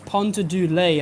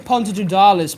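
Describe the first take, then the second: First: The name ends with a 'lay' sound. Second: The name ends with a 'darlis' sound. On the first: This is how the name is properly said. The speaker calls it right. "but it's Ponta do Lay, I think" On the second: This is how the speaker habitually says it. The speaker calls it wrong. "I say Ponta do Darlis"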